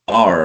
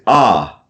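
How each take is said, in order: First: The letter is said the American way. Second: The letter is said the British way. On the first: "like R in American English" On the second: "that's in British English"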